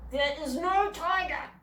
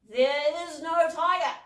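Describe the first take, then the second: First: Slow, firm denial with weight on no. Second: Slow, loud, weary repeat of "no tiger"; Dad echoing Mum, slower and louder; firm denial. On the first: Mum firmly ending the tiger talk, slow and stressed. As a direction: lay down the law, slowly. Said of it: "said Mum firmly". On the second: Dad repeating Mum's denial to the kids, slow and loud. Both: A narrator's reading.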